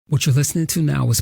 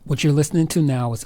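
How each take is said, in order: First: The audio has processing applied after recording. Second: The audio is raw, with no processing applied. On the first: "post-processed audio from the Audio-Technica A T twenty twenty" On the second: "unprocessed audio from the Audio-Technica A T twenty twenty"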